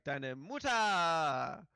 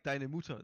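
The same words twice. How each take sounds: First: It is exclaimed with a joke-punchline inflection. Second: It is said plainly, without punchline inflection.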